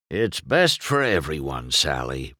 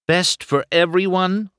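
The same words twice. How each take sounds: First: Said in the usual way. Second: High, sharp indignant echo; Sally challenges Doc, demanding. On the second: A narrator's reading. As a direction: throw his words back at him. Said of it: "Sally demanded".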